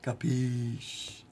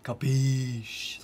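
First: Capiche with a different mock Italian mobster color; Capiche in a mafia Italian accent. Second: Mafia Italian try. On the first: Asking chat how to say it, mock mafia Italian. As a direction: lean into the Italian mob voice on Capiche. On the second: Acted. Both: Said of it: "Do I have to say it like that?".

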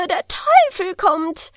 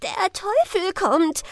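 First: High, slow, louder shrieking cry. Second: High, slow, shrieking cry; shrieking villagers. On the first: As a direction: shriek it again, even louder. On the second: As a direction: shriek it out in terror. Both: A narrator's reading.

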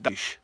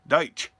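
First: Deitch ending in a soft "sh". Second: Deitch ending in a crisp "tch". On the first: Checking a friend's surname, Deitch said with final sh. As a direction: say Deitch to rhyme with "ice" but with "sh". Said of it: "that's how I say it". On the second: Correcting his friend's surname, Deitch said with final tch. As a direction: close Deitch on a "ch" as in "church". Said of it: "It's Deitch". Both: Shown as a demonstration.

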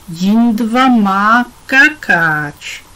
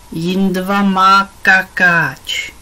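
First: Velmi pomalu, hrdé šišlavé batole; hrdě. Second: Pomalu a šišlavě jako malé batole, hlasitěji; protáhni to jako dvouleté dítě, co se dožaduje pozornosti; dětské křičení. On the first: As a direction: oznam to s dětskou pýchou, rozvláčně. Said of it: "hlásil Jindra hrdě". (batole Jindra pyšně hlásí ostatním svou plnou plínku) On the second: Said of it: "křičel teď Jindra". (batole Jindra křičí na Pipu, že má plnou plínku) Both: A narrator's reading.

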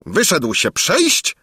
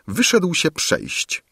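First: High, drawn-out royal disbelief; incredulous exclamation. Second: Said in the usual way. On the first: A narrator's reading. King repeating the valet's news, incredulous. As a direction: echo it slowly as an astonished question. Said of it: "wykrzyknął król".

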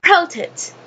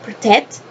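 First: "protect" as PRO-tect, high then falling; high-pitched PRO in "protect"; stress on first syllable. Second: "protect" as pro-TECT, rising at the end; tentative alternative stress, "protect" as pro-TECT; stress on second syllable. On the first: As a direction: hit the PRO of "protect", drop the rest. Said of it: "Pronunciation is". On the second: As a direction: keep PRO short and lift TECT in "protect". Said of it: "the accent". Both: Shown as a demonstration.

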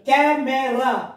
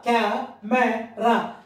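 First: CAMERA slowly as one word in three beats; lightly syllabified. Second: CAMERA as "ca, me, ra" with pauses; very slowly break CAMERA into three syllables; three separate parts. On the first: Teacher introducing the next word to pupils, measured. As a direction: say CAMERA deliberately, syllables barely parted. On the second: Teacher showing pupils three parts, slow and separated. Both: Shown as a demonstration. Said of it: "There are three parts".

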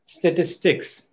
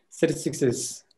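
First: "statistics" slow and deliberate with a clear final S; "statistics" spaced out, plural ending audible; emphasized plural. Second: "statistics is" softer and run together; "statistics is" softly merged like one word; unemphasized plural. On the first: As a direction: stress "statistics" right through to its S. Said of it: "if I don't emphasize on statistics". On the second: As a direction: let "statistics" blur into "is". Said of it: "I didn't emphasize on statistics is". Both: Shown as a demonstration.

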